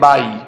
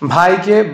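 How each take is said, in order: First: The first consonant is plain, without a breath. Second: The first consonant is aspirated, with a breath. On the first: The speaker calls it wrong. "ব ভতে একটু problem হয়েছে" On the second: The speaker calls it right. "ব ভতে একটু problem হয়েছে"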